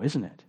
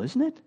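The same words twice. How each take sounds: First: Isn't it dropped quietly and gravely; somber question. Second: Isn't it, high and rising, delighting in the beauty; isn't it lifted up in wonder; admiring question. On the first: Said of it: "It's different now". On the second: Pastor marveling at perfect love in Eden, rising admiring question. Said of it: "It's beautiful". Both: Shown as a demonstration.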